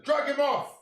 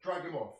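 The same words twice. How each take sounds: First: Angry shout. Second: Said in the usual way. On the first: Real, not acted. Fan yelling at Arteta to sub the player off, angry shout. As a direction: yell for the substitution.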